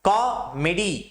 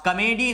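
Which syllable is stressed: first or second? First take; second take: first; second. First: The stress is on the first syllable. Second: The stress is on the second syllable. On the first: The speaker calls it right. "कॉ पे हमने जोर दिया और मेडी पर जोर नहीं दिया" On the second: The speaker calls it wrong. "Comedy नहीं कहेंगे"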